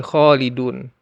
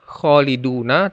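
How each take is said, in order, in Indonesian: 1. Kata ini berakhir pada konsonan, berhenti. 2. Kata ini berakhir dengan bunyi vokal. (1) "tapi berhenti khalidun" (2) "dibacanya bukan khaliduna"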